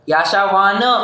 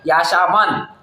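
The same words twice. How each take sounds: First: The final n is said with a full vowel. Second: The final n is said without a vowel. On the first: The speaker calls it wrong. "ऐसा नहीं पढ़ना है" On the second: The speaker calls it right. "न हलंत है वहां पर, तो आधा ही उच्चार होगा न का"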